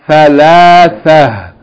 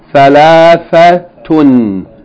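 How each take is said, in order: First: The word ends softly without the -tun ending. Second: The word ends with a full -tun ending. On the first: The reading stops on the word. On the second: The reading continues past the word.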